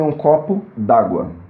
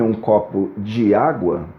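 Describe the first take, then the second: First: The vowel of 'de' is dropped and joined. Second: The vowel of 'de' is said fully. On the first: "eu posso suprimir a vogal E do di e dizer em uma palavra só" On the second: "sirva-me um copo de água"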